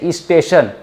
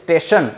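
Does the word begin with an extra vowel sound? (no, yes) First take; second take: yes; no. First: The word starts with an added i vowel. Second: The word starts directly with the s sound. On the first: This is an easier form used by less-schooled speakers. "તો કહે છે ઈ સ્ટેશન" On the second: This is the original form of the word. "સ્ટેશન એવું બોલો"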